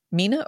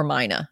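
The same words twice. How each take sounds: First: "Mina" said MEE-nuh, long ee. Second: "Mina" said MY-nuh, long i. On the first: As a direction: say "Mina" with an ee sound. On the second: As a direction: say "Mina" with an eye sound. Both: Shown as a demonstration. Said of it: "Mina or Mina?".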